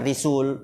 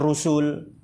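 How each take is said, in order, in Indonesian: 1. Vokal pertama adalah i. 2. Vokal pertama adalah u. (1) "bukan Risul" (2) "bukan Rusul"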